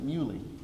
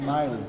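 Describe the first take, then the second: First: The first vowel sounds like 'oo'. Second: The first vowel sounds like 'eye'. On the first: This is how a former classmate says the name. "he pronounced it Muley" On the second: This is how the person addressed says the name. "You pronounce it Miley"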